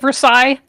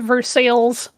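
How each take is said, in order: First: The name is said with a French pronunciation. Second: The name is said with an anglicized pronunciation. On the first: This is the original pronunciation that locals correct. "if you try to say it Versailles, they will correct you" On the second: This is how the local town's name is said. "They have a town legitimately named Versailles"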